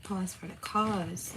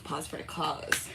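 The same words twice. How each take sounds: First: Slower falling drawl. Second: Slow, low, drawn out; slow drawl. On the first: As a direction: stretch it out to a fall. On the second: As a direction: drag it out slowly. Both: Shown as a demonstration.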